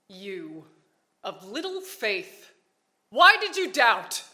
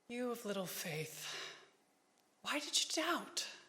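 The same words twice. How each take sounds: First: It is said in an angry tone. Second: It is said in a disappointed tone.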